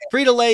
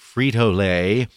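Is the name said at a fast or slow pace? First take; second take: fast; slow. First: The name is said at a normal quick pace. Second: The name is said slowly and deliberately.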